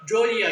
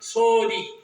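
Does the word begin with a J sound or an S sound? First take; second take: J sound; S sound. First: The word begins with a j sound. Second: The word begins with a soft s sound. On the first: The speaker calls it wrong. "ஜோதி ஆக்கிட்டோம்" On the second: The speaker calls it right. "இயல்பாக சோதி என்றுதான் வரும்"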